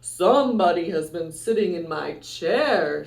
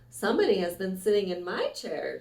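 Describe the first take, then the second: First: It is said in a deep, gruff voice. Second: It is said in a medium, middle voice.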